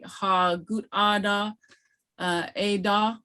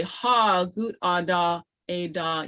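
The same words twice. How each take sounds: First: "Ha gut ada" slow, with question inflection on "Ha". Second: "Ha gut ada" slow, "Ha" firm and settling downward; statement tone. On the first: Teacher holding something up to ask, questioning tone. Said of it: "that's a question". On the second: Teacher answering yes, it is a pencil, statement tone. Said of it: "the pronunciation is different". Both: Shown as a demonstration.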